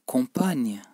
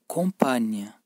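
No difference in how they are said.

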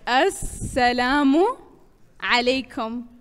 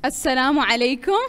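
First: The phrase is said at a slower pace. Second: The phrase is said at a quicker pace.

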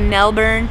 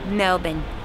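First: It is said with an American pronunciation. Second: It is said with an Australian pronunciation. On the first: The speaker calls it wrong. "all my American teammates here say Melbourne. That's not correct" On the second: The speaker calls it right. "The true Australian way"

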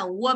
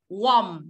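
First: The vowel is an 'er' sound, like worm. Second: The vowel is an 'or' sound, like o. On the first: It means the word for worm. The speaker calls it wrong. "chúng ta không đọc ấm áp là warm đâu" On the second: It means not cold. The speaker calls it right. "mà là warm. Warm, nó là âm o ạ"

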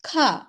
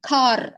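First: The final r sound is silent. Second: The final r sound is pressed and heard. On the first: This is the British way of saying it. "British இங்கிலீஷில் இந்த ஆரை கொஞ்சம் நம்ம சைலண்ட்டாக" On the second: This is not how it is said in British English. "கார் அப்படின்னு நம்ம ரொம்ப அழுத்தி சொல்றது இல்ல"

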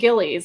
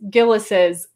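First: The name ends without an added possessive syllable. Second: The name ends with an added possessive syllable. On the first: The speaker calls it wrong. "I called it Gillies, and that is wrong" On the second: The speaker calls it right. "It's Gillis's with an apostrophe at the end"

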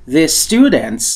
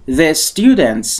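The two takes are said the same way.

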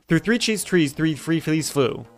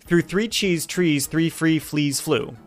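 First: It is said fast. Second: It is said slowly.

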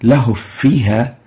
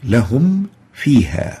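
First: The m sound is merged and not heard. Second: The m sound is clearly heard before f. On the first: The word and its meaning change. The speaker calls it wrong. "if we try, for example, to merge the meme into the fa, it would result in a very funny word like this" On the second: The words keep their meaning. The speaker calls it right.

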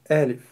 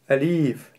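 First: The stress is on the first syllable. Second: The stress is on the second syllable. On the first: The speaker calls it right. "произносится она мягко" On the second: The speaker calls it wrong. "делают ударение на втором слоге"

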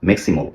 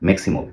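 The two takes are said the same way.

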